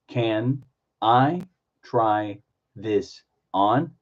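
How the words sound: Each word is said separately with breaks. "Do individual words"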